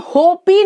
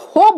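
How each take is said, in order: First: होपी with the silent e sounded as "ee"; wrong final vowel. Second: Said in the usual way. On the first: Shown as a demonstration. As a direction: say hope as two syllables, होपी, "ho-pee". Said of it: "नहीं बोलते हैं". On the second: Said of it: "हम होप बोलते हैं".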